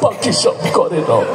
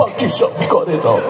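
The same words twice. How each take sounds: First: It is said in a weepy, crying voice. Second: It is said in a weepy, crying voice.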